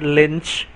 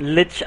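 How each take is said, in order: First: The word has an n sound before ch. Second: The word has no n sound before ch. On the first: The speaker calls it wrong. "and not lynch" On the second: The speaker calls it right. "learn to pronounce lich, lich"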